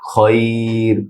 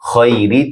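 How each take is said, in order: First: The word ends on the r consonant. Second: The word ends with a short i vowel. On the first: "শেষের রতে জজম হবে অক্ফ করলে" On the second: "শেষের রতে জজম হবে অক্ফ করলে"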